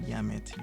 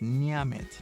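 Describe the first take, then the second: First: The word begins with a plain 'y' sound. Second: The word begins with an 'ny' sound. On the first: The speaker calls it wrong. "not yamit" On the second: The speaker calls it right. "It's nyamit"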